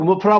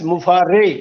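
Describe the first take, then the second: First: The name is said with two syllables, ending in 'ah'. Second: The name is said with three syllables, ending in 'ay'. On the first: The speaker calls it wrong. "हम लोग मुफरा बोलते हैं" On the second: The speaker calls it right. "But actual name is S मुफारे"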